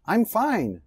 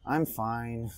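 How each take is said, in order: First: I'm fine said bright, higher and louder; cheerful. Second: I'm fine said soft, low and dejected; sad, down tone. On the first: Teacher shows a cheerful I'm fine to students. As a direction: sing out I'm fine happily. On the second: Teacher shows a sad I'm fine to students. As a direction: let I'm fine sink, quiet and low. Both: Shown as a demonstration. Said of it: "a sua entonação conta muito".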